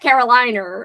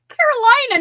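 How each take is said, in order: First: The word ends with an added 'r' sound. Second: The word ends with a plain 'uh' vowel. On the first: The speaker calls it wrong. "not Caroliner" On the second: The speaker calls it right.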